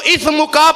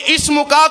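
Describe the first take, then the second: First: اس مکا with th for s, as "ithmuka"; emphatic اس مکا, lisped th replacing s; wrong th sound. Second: اس مکا with a clear s, as "ismuka"; emphatic اس مکا, s rather than th; correct seen. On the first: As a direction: mispronounce اس مکا with a tha in place of seen. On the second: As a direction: demonstrate اس مکا with a true seen. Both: Shown as a demonstration. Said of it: "سین کو سا پڑھ دیا".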